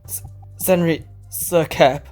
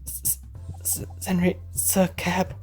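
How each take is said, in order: First: It is said louder. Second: It is said quietly.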